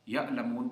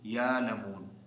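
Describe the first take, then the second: First: A glottal stop is pronounced before the l. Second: A long vowel replaces the glottal stop.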